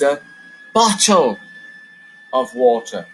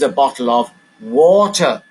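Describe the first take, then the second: First: The word bottle is stressed. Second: The word water is stressed. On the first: The container is the important thing. "I've put the stress on the word bottle" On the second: What is inside is the important thing. "Let's put the stress on water"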